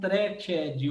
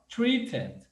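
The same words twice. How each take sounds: First: The word is pronounced in a learner-like way. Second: The word is pronounced in a native-like way. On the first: The speaker calls it wrong. "Tem gente que vai falar assim" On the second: The speaker calls it right. "tem muita gente que não vai conseguir pronunciar isso aqui, ó"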